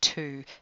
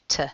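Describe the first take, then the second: First: The word has a full, clear vowel. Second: The word has a weak, reduced vowel. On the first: "instead of saying to" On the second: "you'd say t"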